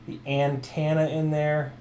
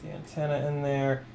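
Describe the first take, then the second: First: Antenna is said with a Kansas-style pronunciation. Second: Antenna is said in the speaker's ordinary accent.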